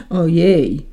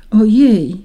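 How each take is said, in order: First: Lightly voiced hoarse man; a hint of a husky grumbler; hoarse gentleman. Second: Higher, louder little "oh dear"; lightly acted startled raindrop; frightened cry. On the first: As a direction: groan it as a grumbling gentleman, understated. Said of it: "zachrypnięty głos jakiegoś jegomościa". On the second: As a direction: exclaim with a touch of fright. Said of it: "zawołała wystraszona". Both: A narrator's reading.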